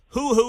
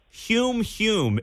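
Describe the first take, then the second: First: The word is said as a plain 'hoo'. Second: The word is said with a 'hyoo' sound. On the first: The speaker calls it wrong. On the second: The speaker calls it right.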